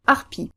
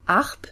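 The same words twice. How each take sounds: First: "arpi" with a short, light first syllable, stress on the final i; short unstressed R. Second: "Arp" as one long stressed syllable with French R. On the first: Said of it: "first syllable in our new position is shorter". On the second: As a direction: lean on the R in "Arp". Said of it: "one where the R is stressed". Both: Shown as a demonstration.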